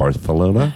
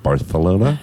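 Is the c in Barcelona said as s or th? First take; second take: th; th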